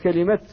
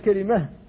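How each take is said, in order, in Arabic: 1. تنتهي الكلمة بصوت t. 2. تنتهي الكلمة بصوت h. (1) "قرأتها بالإفراد، فقلت وتمت كلمة" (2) "ولا يجوز أن تقول كلمة بالهاء"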